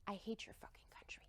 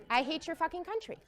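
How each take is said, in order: First: Hushed, whispered curse; whispered translation of an angry line. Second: Laughing repeat. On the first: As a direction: breathe the insult as a quiet aside. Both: Retold or imitated.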